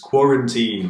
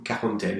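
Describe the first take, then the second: First: The word is pronounced with English sounds. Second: The word is pronounced with French sounds. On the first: "but with the English pronunciation" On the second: "It's the French word"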